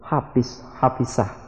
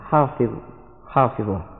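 First: A consonant is replaced by a regional dialect sound. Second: The consonant keeps its standard Arabic sound. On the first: The speaker calls it wrong. "ada yang tidak bisa menyebut huruf wa, sehingga dalam penyebutan sehari-hari mereka selalu menyebut" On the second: The speaker calls it right. "padahal yang sebenarnya adalah"

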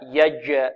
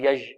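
First: The j sound is firmly stopped, then released. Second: The j sound is loose, without a firm stop. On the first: The speaker calls it right. "والجيم هنا شديدة، فيها انحباس في الصوت" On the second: The speaker calls it wrong. "لا"

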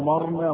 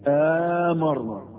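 First: The m is single and the first vowel short. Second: The m is single and the first vowel long. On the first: "قراءة المعتادة المشهورة" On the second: "تبقى همزة المد"

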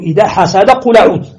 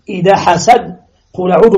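First: The words run together without any pause. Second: There is a brief silent pause after the second word. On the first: "عطف الوصل على الوصل" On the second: "ثم يأتي بالسكت"

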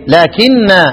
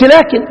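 First: The word ends in a long vowel. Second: The word ends in a short vowel. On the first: The speaker calls it right. "عند الجميع ايه لكن" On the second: The speaker calls it wrong. "ما بنقولش لكن"

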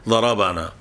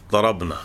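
First: The b is followed by a short a vowel. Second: The b is followed directly by n, no vowel. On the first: Someone hit the speakers. "مفتوح يعني ليس ساكنا" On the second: The speakers did the hitting. "ضمير الرفع يسكن معه الفعل"

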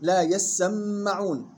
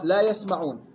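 First: The s and m sounds are doubled. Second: The s and m sounds are single. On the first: "تقرأ بتجديد السين والميم" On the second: "قراءات أخرى"

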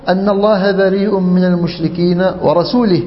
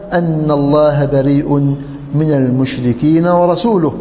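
First: The last word ends with an i vowel. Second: The last word ends with a u vowel. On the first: God disowns the polytheists and His messenger. The speaker calls it wrong. "ليس هكذا يا أعرابي" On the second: God and His messenger disown the polytheists. The speaker calls it right. "كيف هي يا أمير المؤمنين؟"

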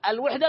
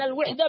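First: The first vowel is an 'a' sound. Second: The first vowel is an 'i' sound. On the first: It means union or coming together. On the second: It means being alone or singular.

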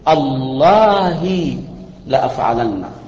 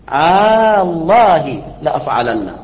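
First: The opening glottal stop is cut short. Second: The opening vowel is drawn out long. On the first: "ويجوز أن تقطع الهمزة فتقول" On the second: "فمده أن تقول الله لأفعلن، ... هذا مد"

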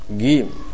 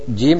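First: The word starts with a hard g sound. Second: The word starts with a j sound. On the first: The speaker calls it wrong. "Mereka pakai jim dengan gim, gim" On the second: The speaker calls it right. "Mereka pakai jim dengan gim"

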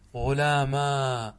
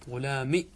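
First: The word ends in a long a vowel. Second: The word ends in a short i vowel. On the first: "اقلب الياء ألفا وافتح ما قبلها" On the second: "كسرة بدون ياء"

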